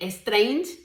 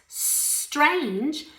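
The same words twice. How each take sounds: First: An extra vowel sound comes before the s. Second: The word starts directly with the s sound. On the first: The speaker calls it wrong. "no es ni strange" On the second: The speaker calls it right. "so that I could pronounce this properly"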